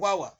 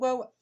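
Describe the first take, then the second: First: It is called out in a harsh, scolding tone. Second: It is called out in a warm, tender tone. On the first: The child would be frightened. The speaker calls it wrong. "Se va a asustar el niño" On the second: The child is called lovingly. The speaker calls it right. "con mucho cariño"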